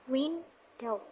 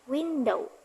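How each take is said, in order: First: "window" split into two separate beats; syllable by syllable. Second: Said in the usual way. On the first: Shown as a demonstration. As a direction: say "window" as win, pause, dow. Breaking word into two syllables.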